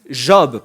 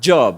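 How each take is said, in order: First: The word begins with a soft 'zh' sound. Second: The word begins with a 'dj' sound. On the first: It names the man in the Bible. The speaker calls it right. "Il n'y a pas de D devant, c'est Job" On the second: It means a paid occupation. The speaker calls it wrong. "pas job"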